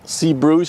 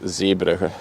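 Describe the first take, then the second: First: The name is pronounced the English way. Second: The name is pronounced the Dutch way. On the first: "is just the English pronunciation" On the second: "in Dutch it's"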